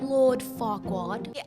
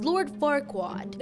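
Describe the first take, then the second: First: It is said in a put-on British accent. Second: It is said in the speaker's usual accent.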